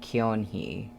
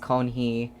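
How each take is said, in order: First: The first syllable is said with an extra vowel. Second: The first syllable is said without the extra vowel. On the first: The speaker calls it wrong. "and not Kyonhi" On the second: The speaker calls it right. "I think it's Konhi"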